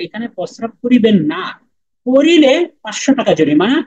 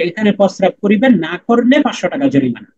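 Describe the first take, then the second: First: The pause comes after the word 'na'. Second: The pause comes before the word 'na'.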